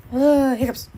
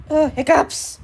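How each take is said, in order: First: Hiccuping mid-word; hiccups. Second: Louder groan with hiccups. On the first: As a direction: talk through a hiccup. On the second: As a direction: hiccup breaks the word. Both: Real, not acted.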